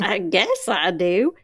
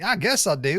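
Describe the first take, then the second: First: Slow, stretched Southern echo. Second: Teasing Southern imitation, higher. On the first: Retold or imitated. Co-host playing along with the tease, drawled Southern. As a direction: lean into the Southern vowels, slowly. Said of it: "really went Southern on that". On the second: Host teasing co-host about the answer, mock Southern. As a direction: mimic a Southern lilt. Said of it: "You really went Southern on that".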